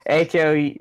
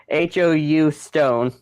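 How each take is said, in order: First: H O U spelled letter by letter. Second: H O U stone spelled slowly. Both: Shown as a demonstration.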